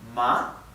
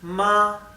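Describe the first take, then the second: First: The pitch rises across the syllable. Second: The pitch stays high and level throughout. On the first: "el tono ascendente" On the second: "es un tono más alto y, y que no tiene altibajos, no cambia"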